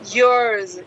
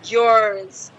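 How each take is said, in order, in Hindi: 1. स्वर 'yours' जैसा सुनाई देता है। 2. स्वर 'yours' जैसा सुनाई देता है।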